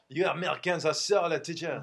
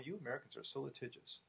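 First: It is said in a put-on French accent. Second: It is said in the speaker's normal accent. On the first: The speaker calls it right. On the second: The speaker calls it wrong.

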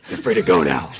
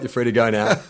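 First: It is said in a deep, gruff put-on voice. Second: It is said in a plain, ordinary voice. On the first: The speaker calls it right. "Oh, sorry" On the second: The speaker calls it wrong. "aren't you even going to do the Batman voice?"

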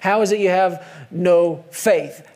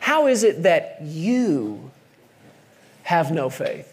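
First: The word 'faith' is stressed. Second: The word 'you' is stressed. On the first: The point is their lack of faith itself. "I always put the emphasis there, fear and faith" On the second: The point is that these people, who had just heard the word, lacked faith. "He just simply put the emphasis in a different place for me"

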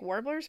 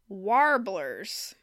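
First: The word has a non-Midwestern pronunciation. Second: The word has a Midwestern pronunciation. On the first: This is the speaker's own usual pronunciation. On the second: This imitates how someone else said it.

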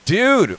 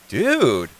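First: It sounds disapproving and incredulous. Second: It sounds impressed and admiring. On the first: The speaker questions why it was done. "Was it more like, dude, why did you do that?" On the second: The speaker is impressed by what was done. "Or was it like, dude, you did that nice?"

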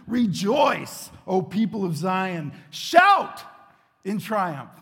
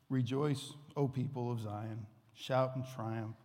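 First: It is read loudly, with excitement. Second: It is read flatly, without energy.

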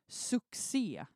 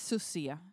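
First: The 'cc' is pronounced as a k-s sound. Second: The 'cc' is pronounced as a plain s sound. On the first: The speaker calls it right. "det ska uttalas med K" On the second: The speaker calls it wrong. "Man säger inte succé"

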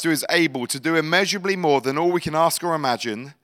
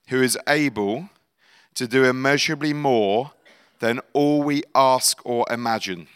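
First: It is read at a normal pace. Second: It is read slowly.

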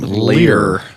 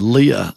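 First: The name is said in a Southern drawl. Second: The name is said in a standard accent. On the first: "That's how a Southern person would say your mama's name" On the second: "Instead of Leah"

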